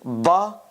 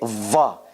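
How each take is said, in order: First: It begins with a b sound. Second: It begins with a v sound. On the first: "we said it could be ba" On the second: "it could be va"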